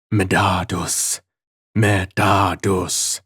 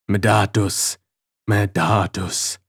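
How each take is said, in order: First: Slow hoarse syllable-by-syllable calling; stammering hoarse voice. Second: Slow halting copy of the demon's call; stammering imitation. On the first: Hidden voice calling the prisoner's name, slow and hoarse. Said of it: "a low, stammering, hoarse voice syllabically pronounce my name". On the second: Prisoner copying the hidden voice, slow stammer. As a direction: stammer the name to test the voice. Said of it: "I stammered, in imitation". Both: A narrator's reading.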